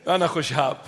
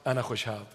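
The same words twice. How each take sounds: First: أنا خشاب in a typical Iraqi Arabic accent; لهجة عراقية. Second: Said in the usual way. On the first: Shown as a demonstration. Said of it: "I said it in the typical Iraqi accent". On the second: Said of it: "I said it in the typical Iraqi".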